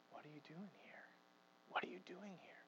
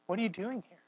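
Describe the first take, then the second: First: Whisper. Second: Much softer voiced question; God questioning Elijah at the mountain, soft; God asking softly. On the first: Retold or imitated. God whispering his question again to Elijah. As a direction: still small voice, whispered. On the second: God asking Elijah why he fled, softly voiced. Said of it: "It asks".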